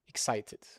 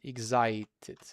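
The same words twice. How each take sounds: First: The first syllable sounds like 'eks'. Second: The first syllable sounds like 'egz'. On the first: The speaker calls it right. "like this" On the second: The speaker calls it wrong. "Many Turkish people will say excited"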